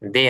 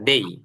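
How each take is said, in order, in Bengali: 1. এটি সাধারণ ছোট 'e' স্বরবর্ণ দিয়ে শেষ হয়। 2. এটি 'ey' গ্লাইড দিয়ে শেষ হয়। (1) "দে না"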